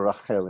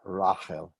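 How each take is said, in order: First: Rachel as ra-KHEL, stressed on the end; Hebrew stress. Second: Rachel as RA-khel, stressed on the first syllable. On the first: Teacher giving usual Hebrew, Rachel stressed on KHEL. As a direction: put the weight of Rachel on KHEL. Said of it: "usually people are Rachel in Hebrew". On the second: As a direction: draw out RA at the start of Rachel. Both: Shown as a demonstration.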